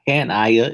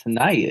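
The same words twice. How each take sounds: First: Hanaya split as HAN-aya; wrong first-syllable stress. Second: Hanaya with the middle NAI stressed; correct name stress. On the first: Showing the co-host the mistake, Hanaya stressed on HAN. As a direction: lean on the opening HAN of Hanaya. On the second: Correcting the co-host's pronunciation, Hanaya stressed on NAI. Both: Shown as a demonstration. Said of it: "get the emphasis on the right words".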